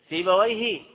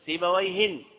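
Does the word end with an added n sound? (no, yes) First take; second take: no; yes. First: The word ends without an added n sound. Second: The word ends with an added n sound. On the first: It refers to one specific known person. "سيبويه هذا المعرفة" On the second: It refers to any person with that name. "سيبويهن من هو نكر، هذا أي واحد"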